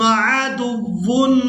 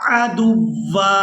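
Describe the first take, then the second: First: The word ends with a short 'un' sound. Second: The word ends with a lengthened 'a' sound. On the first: The reading continues into the next word without stopping. "अगर हम इसको वसल के साथ पढ़ते हैं तो फिर इसकी अदायगी इस तरह से करेंगे" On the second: The reading stops at this word. "वक्फ की सूरत में एक ज़बर अदा करेंगे और इस वाव को एक अलिफ मिकदार खींचकर अदा करेंगे"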